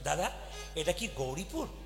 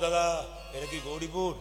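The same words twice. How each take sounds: First: The question is asked in a polite, friendly tone. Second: The question is asked in a rude, haughty tone. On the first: The listener answers helpfully. The speaker calls it right. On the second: The listener takes offence and gets angry. The speaker calls it wrong.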